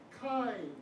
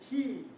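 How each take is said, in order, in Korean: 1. 모음은 eye 소리 같아요. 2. 모음은 ee 소리 같아요.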